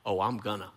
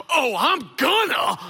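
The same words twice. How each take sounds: First: Low, soft mock defiance; understated defiance. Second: High, hammed-up defiant yell. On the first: We want to talk back, quietly defiant. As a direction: say the comeback under your voice. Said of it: "we wanna say back". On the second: Daughter yells back at dad across court, defiant. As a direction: yell it back like a furious kid. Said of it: "she yells back at me across the court".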